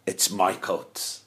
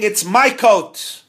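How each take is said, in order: First: Subconscious. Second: Slow, loud, higher yell of my coat; mock scream. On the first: Retold or imitated. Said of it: "I was screaming". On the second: Rabbi imitating the quarreling men, slow loud yell. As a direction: shout MY coat, slowly. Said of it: "You were screaming".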